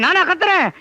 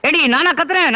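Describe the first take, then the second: First: நானா thrown out higher and harder, falling hard; louder angry denial. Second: Angry denial. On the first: Husband denying he is shouting while shouting louder. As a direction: repeat it, now shouting. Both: Acted. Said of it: "திடீர்னு ஏன் இப்படி கத்துறீங்க".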